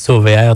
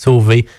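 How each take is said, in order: First: The name ends with a pronounced letter R. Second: The name ends without any letter R. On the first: "Il y en a qui disent Sauvé R" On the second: "d'autres qui disent Sauvé simplement"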